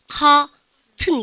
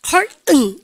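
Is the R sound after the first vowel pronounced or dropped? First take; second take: dropped; pronounced. First: The R after the first vowel is dropped. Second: The R after the first vowel is pronounced. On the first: "영국 애들은 그 대신에 중간 R 발음 하지 않고" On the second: "미국이고"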